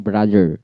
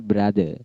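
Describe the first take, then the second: First: Brother with a sounded final R; R pronounced. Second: Brother with the final R dropped; British silent R. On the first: Showing what to avoid for British, brother with its R sounded. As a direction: let "brother" end on a clear R. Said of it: "Bukan brother". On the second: Correcting to British style, brother without the R. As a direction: end "brother" on a plain vowel, R silent. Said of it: "R-nya silent". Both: Shown as a demonstration.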